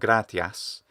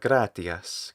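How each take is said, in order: First: The final vowel is full and clear. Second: The final vowel is reduced and obscured. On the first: "it's not merely gratias" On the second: "Italian speakers tend to reduce that vowel"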